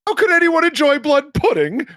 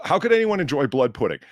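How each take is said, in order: First: High, loud incredulous repeat; shrieked consternation, badly faked British; outraged British questioning. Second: Said in the usual way. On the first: Shown as a demonstration. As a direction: echo it back as an appalled question. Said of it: "repeating of what somebody said in the form of a question". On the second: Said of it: "I can't do the accent".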